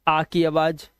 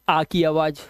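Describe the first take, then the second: Both takes have the same delivery.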